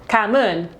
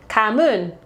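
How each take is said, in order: The two takes are said the same way.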